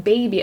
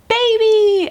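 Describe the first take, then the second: First: Said in the usual way. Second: High, loud burst of joy; excited announcement. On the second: Retold or imitated. Nurse turning the screen to the mother, shouting it high and excited. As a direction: announce it like a surprise reveal.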